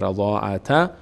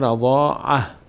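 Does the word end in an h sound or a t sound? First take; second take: t sound; h sound. First: The word ends in a t sound. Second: The word ends in a soft h sound. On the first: The reciter continues past this word. "اگر ادامه دادیم که میشه رضاعت" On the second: The reciter stops at this word. "اگر ایستادیم میشه رضاعه"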